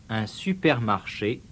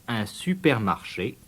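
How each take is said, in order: The two takes are said the same way.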